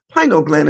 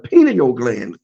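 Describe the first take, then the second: First: The first syllable sounds like pine. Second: The first syllable sounds like pin. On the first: The speaker calls it right. "it's spelled pine" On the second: The speaker calls it wrong. "and not a pineal gland, as people call it"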